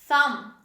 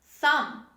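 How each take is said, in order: No difference in how they are said.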